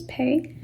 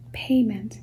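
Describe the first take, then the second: First: PAYMENT broken in two, pay, then ment; split syllables. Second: Said in the usual way. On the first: Shown as a demonstration. Teacher dividing a word for spelling, PAYMENT in two parts. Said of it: "It's two syllables". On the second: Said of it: "ment, M E N T".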